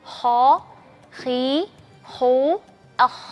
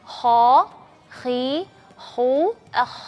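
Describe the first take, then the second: No difference in how they are said.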